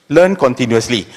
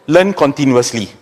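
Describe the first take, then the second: No difference in how they are said.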